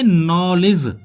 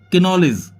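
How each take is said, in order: First: The k at the start is silent. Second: The k at the start is sounded. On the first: The speaker calls it right. "इसको बोलेंगे नॉलेज" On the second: The speaker calls it wrong. "ना कि किनॉलेज"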